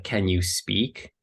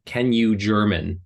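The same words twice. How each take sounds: First: Said in the usual way. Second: Slow "Can you German?" with a falling end; literal translation. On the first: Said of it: "sometimes they'll skip the". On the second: Shown as a demonstration.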